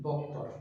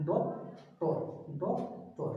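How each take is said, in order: First: Said in the usual way. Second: doctor as two separate beats, "dok... tor"; split into syllables. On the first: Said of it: "উচ্চারণ করার সময় আমাদের দুইটা শব্দ". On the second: Shown as a demonstration. Teacher showing students the two sounds in doctor, syllable by syllable. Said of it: "উচ্চারণ করার সময় আমাদের দুইটা শব্দ উচ্চারিত".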